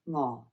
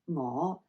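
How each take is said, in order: First: The pitch stays low and level. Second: The pitch starts low and rises. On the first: It means hungry. "you've got a low tone" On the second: It means I. "you're going low rising"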